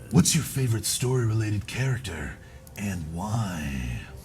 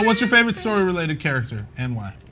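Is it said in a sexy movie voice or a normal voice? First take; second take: sexy voice; normal voice. First: It is said in a deep, sexy movie voice. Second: It is said in his ordinary speaking voice.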